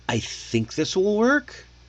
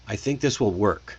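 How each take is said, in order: First: The pitch rises at the end. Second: The pitch falls at the end. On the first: The speaker is unsure. The speaker calls it wrong. "See how it sounds like a question? It sounds unsure" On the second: The speaker means what they say. The speaker calls it right. "it ends with a period. I ended on a down note"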